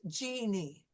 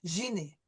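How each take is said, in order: First: The name starts with a hard English j sound. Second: The name starts with a soft sh-like zh sound. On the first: This is the English pronunciation. "my first name is Jeannie, and you'll notice my lips" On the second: This is the French pronunciation. "But in French, it would be Jeannie. It's more of a sh sound"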